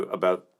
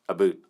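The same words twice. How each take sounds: First: Said in the usual way. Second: "a boot" with an oo vowel; mock Canadian "about". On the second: Streamer ribbing Canadian viewers, "a boot" with a mock oo. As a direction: tease with "a boot" for "about", oo in place of ow. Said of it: "we do not say a boot".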